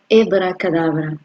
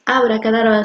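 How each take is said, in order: First: The word begins with a 'he' sound. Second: The word begins with a plain 'a' sound. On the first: The speaker calls it right. "Esa es la pronunciación correcta" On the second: The speaker calls it wrong. "la palabra real no es abracadabra"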